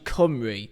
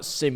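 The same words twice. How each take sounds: First: It is pronounced the Welsh way. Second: It is pronounced the way it looks in English. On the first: The speaker calls it right. "that's how it's actually pronounced in Welsh" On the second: The speaker calls it wrong. "it's actually not Cymru"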